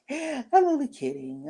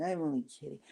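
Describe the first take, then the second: First: Laughing it off. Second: Said in the usual way. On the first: Retold or imitated. Imitating the friend laughing off an insult.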